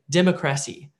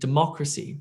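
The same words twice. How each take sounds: First: The stress falls on an unexpected syllable. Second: The stress falls on the expected syllable. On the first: The speaker calls it wrong. "you may not know where the word stress goes, and you may say democracy" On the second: The speaker calls it right. "that sounds completely different than democracy"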